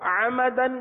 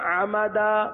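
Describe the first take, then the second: First: The word ends in a short 'an' sound. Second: The word ends in a long 'a' sound. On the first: The reading carries on without stopping. "دو زبر کی تنوین" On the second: The reading stops at this word. "الف سے بدلتے ہیں"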